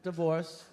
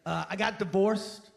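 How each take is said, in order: First: Mock sad-sack echo. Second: Mock sad-sack guy. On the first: Repeated, lower and quieter.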